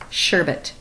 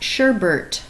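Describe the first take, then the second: First: No R sound comes before the final T. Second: An extra R sound comes before the final T. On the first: The speaker calls it right. "It's sherbet" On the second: The speaker calls it wrong. "it is not sherbet. There's no R next to that last T there"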